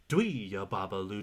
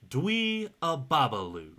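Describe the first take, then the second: First: The phrase is said at a faster pace. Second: The phrase is said at a slow pace. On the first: "a little faster, like this" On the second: "you have to be able to say it slowly"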